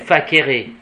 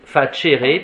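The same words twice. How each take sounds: First: It uses the restored classical Latin pronunciation. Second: It uses the traditional Latin pronunciation. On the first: This is the restored classical pronunciation. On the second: This is the traditional church pronunciation.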